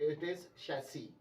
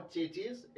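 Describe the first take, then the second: First: Chassis slowly as shas-ee; correct, slow. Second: Chassis as chay-chis; hard ch at both ends of chassis; wrong pronunciation. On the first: Teacher slowly giving students the correct chassis. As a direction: draw out the right chassis. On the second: Teacher contrasting the wrong form for students. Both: Shown as a demonstration. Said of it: "Not chassis".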